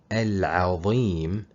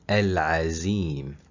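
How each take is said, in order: First: The middle consonant is the emphatic letter va sound. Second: The middle consonant is a plain z sound. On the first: The speaker calls it right. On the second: The speaker calls it wrong.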